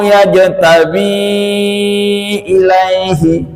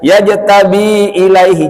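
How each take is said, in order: First: The long vowel is held for a long time. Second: The long vowel is cut short. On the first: The speaker calls it right. "tanda panjangnya dibaca lima harokat" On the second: The speaker calls it wrong.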